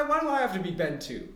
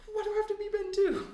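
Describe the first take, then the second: First: Said in the usual way. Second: Much higher pitched complaint; whiny protest. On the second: Acted. Double objects to being numbered second, high-pitched protest.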